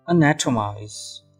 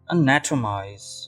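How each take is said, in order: No difference in how they are said.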